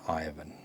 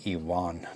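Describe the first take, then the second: First: The name is said with English pronunciation. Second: The name is said with Spanish pronunciation. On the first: The speaker calls it wrong. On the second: The speaker calls it right. "Spaniards, Spanish people, Mexican people, uh, Latinos, they would say"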